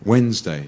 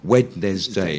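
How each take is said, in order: First: The D is dropped and not sounded. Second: Every letter is sounded, including the D. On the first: The speaker calls it right. "you forget the D completely" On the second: The speaker calls it wrong. "If you were really pronouncing it phonetically"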